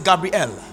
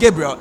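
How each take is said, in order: First: The final syllable is clearly said as 'el'. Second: The final syllable is reduced and unclear. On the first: The speaker calls it right. "it's Gabriel" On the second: The speaker calls it wrong. "Gabriel is not Gabriel"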